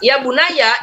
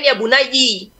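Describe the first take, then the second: First: The word ends with an 'a' vowel. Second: The word ends with an 'i' vowel. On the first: This is the Hafs reading. "secara umum hanya bacaan Hafs" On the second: This is the reading of other reciters. "Yang lain"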